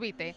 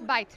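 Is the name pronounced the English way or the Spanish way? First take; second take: Spanish; English. First: It is read with Spanish sounds, bi-te. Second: It is said like the English word bite. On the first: The speaker calls it wrong. "no Bite" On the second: The speaker calls it right. "Es Bite, como mordisco en inglés"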